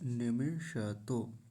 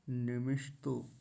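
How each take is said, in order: First: The sh is full, with a vowel after it. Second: The sh is clipped, with no vowel after it. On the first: The speaker calls it right. "मूर्धन्य शकार को पूरा बोलेंगे" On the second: The speaker calls it wrong. "यहाँ गलती क्या होती है"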